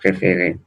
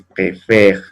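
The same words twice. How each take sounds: First: "Préféré" with last E pronounced as closed ay; sounded final É. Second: "préfère" ending on R after open eh; silent final E. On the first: Teacher showing the acute E is pronounced, sounded É. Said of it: "esa sí se puede pronunciar". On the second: Teacher showing which E is silent, open È. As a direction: leave the last E of "préfère" unsaid. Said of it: "Y esta no se pronuncia". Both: Shown as a demonstration.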